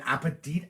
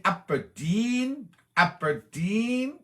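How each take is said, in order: First: Said in the usual way. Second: "Aberdeen" stretched very slowly, last syllable sliding up high; playful drawn-out name. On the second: Pretend. Streamer savours a viewer's town, "Aberdeen" high and drawn out. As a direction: draw out "Aberdeen" in a high, rising lilt.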